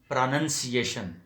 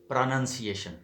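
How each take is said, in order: Both takes have the same delivery.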